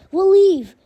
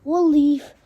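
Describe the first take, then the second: First: Pleading louder and higher on leave; louder desperate repeat. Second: Said in the usual way. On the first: A narrator's reading. Glenn begging Negan to spare them, louder plea. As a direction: beg it harder the second time.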